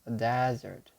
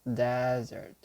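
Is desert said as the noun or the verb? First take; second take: noun; noun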